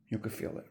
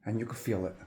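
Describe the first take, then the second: First: Breathy whispered repeat, almost no voice. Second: Said in the usual way. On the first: Shown as a demonstration. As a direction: lean in and whisper it like a secret.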